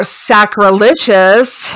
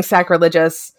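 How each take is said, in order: First: "sacrilegious" said slowly and carefully, as a correction; slow down and say "sacrilegious" again carefully, syllable by syllable; slow corrected pronunciation. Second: Said in the usual way. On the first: Shown as a demonstration. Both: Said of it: "or sacrilegious".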